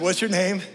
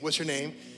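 First: The question is asked in a gentle, polite manner. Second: The question is asked in a blunt, abrupt manner. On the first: This is how it was really asked. The speaker calls it right. "But I said" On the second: This is not how it was really asked. The speaker calls it wrong. "I didn't say it like that"

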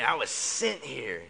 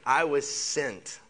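First: It is said with sassy attitude. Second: It is said plainly, without attitude.

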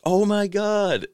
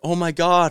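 First: It is said with more excitement. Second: It is said with little excitement. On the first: The speaker calls it right. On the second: The speaker calls it wrong.

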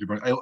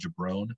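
First: The word ends with a final vowel sound. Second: The word ends without its final vowel sound. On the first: "if I call somebody a jabroni" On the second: "I'll call them a jabron"

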